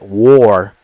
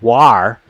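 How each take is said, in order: First: The vowel sounds like the letter O. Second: The vowel sounds like the letter A. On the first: This is how people actually say it. "we pronounce the letter A in war with the O" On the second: This is how the spelling rules would suggest. "if we actually followed the rules of English, the A would be an A"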